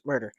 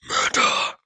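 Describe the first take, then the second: First: It is said in the reader's normal voice. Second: It is said in a different, altered voice.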